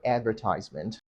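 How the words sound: It is said with an American accent. "Americans say advertisement"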